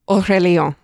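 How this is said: The name is said with a French pronunciation. "I'm copying the dictionary translator. ... it's French"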